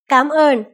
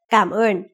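First: The first syllable has a high rising tone. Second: The first syllable does not have a rising tone. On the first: It is the casual spoken form. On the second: It is the standard written and spoken form.

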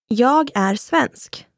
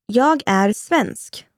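The two takes are said the same way.

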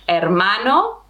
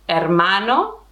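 Both takes have the same delivery.

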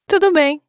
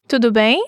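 First: The voice falls at the end. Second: The voice rises at the end.

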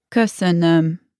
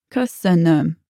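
Both takes have the same delivery.

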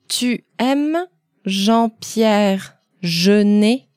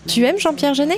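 First: It is said more slowly than normal. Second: It is said at normal conversational speed.

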